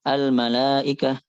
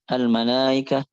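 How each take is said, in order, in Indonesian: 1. Hamzahnya dilunakkan mendekati vokal. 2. Hamzahnya dilunakkan mendekati vokal.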